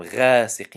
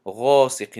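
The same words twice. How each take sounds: First: غاسق said the wrong way, not heavy; wrong ghaasiq. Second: غاسق with a full, heavy ghayn; heavy ghaa. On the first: Teacher shows the wrong غاسق to students. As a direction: say غاسق lightly as the error. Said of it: "غاسق نگفتیم". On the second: Teacher shows the correct heavy غاسق to students. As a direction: say غاسق with a thick gh sound. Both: Shown as a demonstration.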